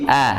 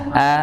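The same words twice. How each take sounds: First: The vowel sounds light and thin. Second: The same.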